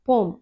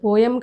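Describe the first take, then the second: First: The word is said as one syllable. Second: The word is said as two syllables. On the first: The speaker calls it right. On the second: The speaker calls it wrong. "అది పోయం కాదు"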